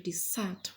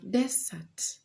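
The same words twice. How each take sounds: First: The stress is on the second syllable. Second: The stress is on the first syllable. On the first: It means to leave completely. "which is a verb ... Its stress is falling on the second syllable" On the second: It names a dry, sandy land. "which is a noun, the stress is falling on the first part"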